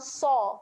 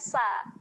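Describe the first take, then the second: First: The sound is thick and heavy, with a darker vowel. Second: The sound is thin and light, with a brighter vowel. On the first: The speaker calls it right. "kita akan bunyikan dengan so" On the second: The speaker calls it wrong. "bukan sa"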